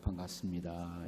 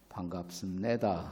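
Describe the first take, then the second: First: It is said as a plain, standard greeting. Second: It is said North Korean style, stressed at the end.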